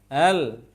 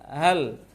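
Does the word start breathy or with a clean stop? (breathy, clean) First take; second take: breathy; breathy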